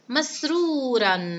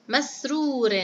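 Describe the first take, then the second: First: The word ends in the sound -an. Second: The word ends in the sound -in. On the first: "تنوين الفتح" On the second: "نلفظها مع تنوين الكسر"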